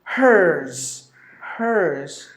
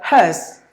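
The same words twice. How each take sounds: First: "hers" for hearse, drawn out with a clear R; slow American "hers", R-coloured vowel; American, R sounded. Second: "has" for hearse, HUHS with no R; r-less British "has"; British, silent R. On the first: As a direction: say "hearse" slowly, curling the R before the S. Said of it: "only the letter R is pronounced". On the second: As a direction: say "hearse" British-style, long vowel straight into S. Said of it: "Three letters are silent in this word in British English". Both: Shown as a demonstration.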